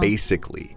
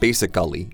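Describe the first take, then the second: First: The second 'a' is dropped, sounding like 'basic-ly'. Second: The second 'a' is clearly pronounced as 'ally'. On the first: The speaker calls it right. "it's basically" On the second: The speaker calls it wrong. "we don't really emphasize the second A. So it's not basically"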